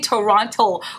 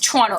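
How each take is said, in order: First: It is said the way outsiders pronounce it. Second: It is said the way locals pronounce it. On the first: The speaker calls it wrong. "we don't say Toronto" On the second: The speaker calls it right. "you know it's Toronto"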